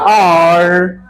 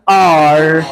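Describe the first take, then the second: Both takes have the same delivery.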